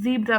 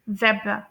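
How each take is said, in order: First: It is said with an American accent. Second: It is said with a British accent. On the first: "US में सिर्फ ज़ीब्रा" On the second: "UK में pronounce किया जाता है"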